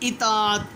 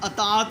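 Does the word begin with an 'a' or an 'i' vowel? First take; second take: i; a. First: The word begins with an 'i' vowel. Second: The word begins with an 'a' vowel. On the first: The speaker calls it right. "अलिफ के नीचे ज़ेर आएगी" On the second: The speaker calls it wrong. "अताअत नहीं होता, अलिफ के ऊपर ज़बर नहीं लगानी"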